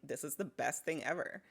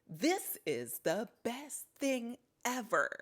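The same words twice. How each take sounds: First: The words are said with relaxed, everyday emphasis. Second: Several words are stressed in an exaggerated way. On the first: The speaker calls it right. "This is more like me" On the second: The speaker calls it wrong. "accentuating certain words"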